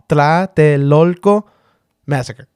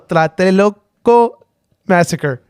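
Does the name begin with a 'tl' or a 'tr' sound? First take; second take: tl; tr. First: The name begins with a 'tl' sound. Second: The name begins with an R-like 'tr' sound. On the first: The speaker calls it right. "I'll try again" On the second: The speaker calls it wrong. "don't pronounce the first part like an R"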